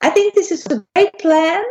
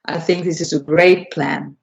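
First: High voice with the tummy tucked in; higher pitched, squeaky. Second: Lower, charismatic leader's voice; low Obama voice. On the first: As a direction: say it high and squeaky, stomach pulled tight. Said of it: "tuck in my tummy and say". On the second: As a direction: let the belly go and speak low with authority. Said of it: "I'll simply blubber my belly out". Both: Shown as a demonstration.

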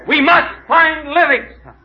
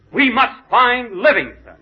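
First: Slow, loud and high, full hammed-up heroics; grand vow. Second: Slow, louder, a touch higher, hammed-up resolve; determined vow. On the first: Explorer to the kid after another failure, big hammed-up vow. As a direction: drag out a big heroic proclamation. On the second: Explorer urging the guide onward, slow hammed-up resolve. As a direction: plant each word like a heroic pledge.

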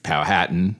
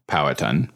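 First: Powhatan with the stress on hat, pow-HAT-an; stress on second syllable. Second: Powhatan as POW-uh-tan, first syllable stressed. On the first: Listing the names historians use, pow-HAT-an. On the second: Giving the other form of the name, POW-uh-tan. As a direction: say Powhatan as POW-uh-tun, the middle squeezed. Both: Shown as a demonstration. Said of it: "usually refer to the paramount chief".

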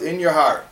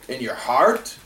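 First: Said in the usual way. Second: "heart" lifted into a questioning rise; sceptical question. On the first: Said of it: "Qualifying statement is like this". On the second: Acted. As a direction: query "heart" as the hard part. Objector questions the words just quoted.

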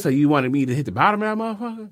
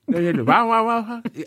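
First: Said in the usual way. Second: High, mush-mouthed mimicry with slurred words. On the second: Host showing how the rapper talks with veneers, mush-mouthed impression. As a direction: imitate a rapper talking through veneers, consonants lost. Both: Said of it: "He talked like this".

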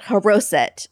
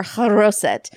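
First: "haroset" starting on a light, breathed H; haroset with plain H. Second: "haroset" opened on a rasped, back-of-the-throat H; haroset with guttural H. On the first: Offering our word for it, "haroset" with plain H. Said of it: "I don't know how Noel pronounced it". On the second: Guessing how they say it there, guttural "haroset". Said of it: "that's the way they pronounce it there". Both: Shown as a demonstration.

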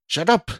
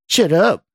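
First: Short, high-pitched outburst; raised, sharp command; shout. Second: Loud, high mimicking jeer; exaggerated, swooping mockery; mocking repeat. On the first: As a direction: shout him down. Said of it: "Scott shouted again". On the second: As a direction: parrot it back mockingly. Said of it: "repeated in a mocking tone". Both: A narrator's reading.

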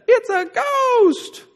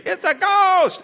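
First: Very high, very slow drawn-out wail; terrified ghost cry. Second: Much higher, quick mock shriek of fright; mock scream. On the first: Retold or imitated. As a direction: stretch it into a spooked, quavering howl. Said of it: "It's probably what they sounded like". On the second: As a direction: yelp it like a panicked fisherman. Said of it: "They actually scream".

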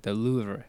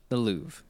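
First: Louvre with a soft final R; French pronunciation. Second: Louvre with no final R, "Loov"; American pronunciation. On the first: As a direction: let Louvre end in a light "ruh" after the V. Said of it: "It's a very soft R". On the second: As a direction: say Louvre as one syllable, ending on V. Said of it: "Americans call it the Louvre". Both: Shown as a demonstration.

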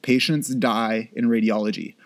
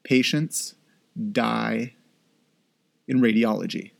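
First: Patients die in radiology said straight through; no pauses, one even phrase; plain restatement. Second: Patients, pause, die, pause, in radiology; each word set apart by long pauses; slow dramatic pauses. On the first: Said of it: "It happens all the time". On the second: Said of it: "you need to know". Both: Shown as a demonstration.

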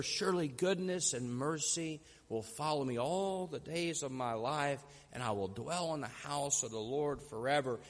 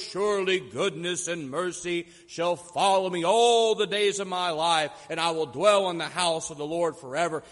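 First: Soft, low, reverent recital; hushed near-whisper. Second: Loud, grand recitation of scripture; captivating orator. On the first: Old preacher finishing the Psalm, voice merely a whisper. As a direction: drop right down, almost to a whisper. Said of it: "his voice was merely a whisper". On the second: Orator reaching the last verse before a rapt crowd, captivating grand delivery. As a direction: project it like a great orator's finale. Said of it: "began in his deep, captivating voice". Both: Acted.

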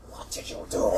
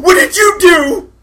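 First: Breathy, unvoiced, softer question; hushed accusation. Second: Slow, high, loud shriek; screamed accusation. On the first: Gretchen faces the blue orc, hushed accusation. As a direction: say it under your breath, aghast. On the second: Acted. Gretchen faces the blue orc, screamed accusation. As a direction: scream it, drawing out the words.

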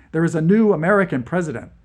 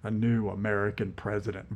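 First: "new" lifted and hit hard, fast; urgent with "new" punched; stress on new. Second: Low, soft mutter of "new American president". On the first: Acted. General stresses stakes. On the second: A narrator's reading. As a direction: mutter it under your breath, "new" flat. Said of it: "Vlad muttered".

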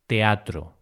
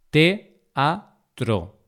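First: Said in the usual way. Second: "Teatro" broken into te, a, tro; syllable by syllable. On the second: Shown as a demonstration. Teacher showing learners the vowel hiatus, syllable by syllable. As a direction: say "Teatro" in separate syllables with pauses. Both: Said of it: "esa separación de sílabas".

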